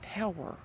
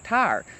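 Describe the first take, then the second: First: It is said carefully as two clear syllables. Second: It is said in a local accent, like 'tire'. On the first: "I have to literally stop myself and say tower" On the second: "here in Kentucky, we call that a tire"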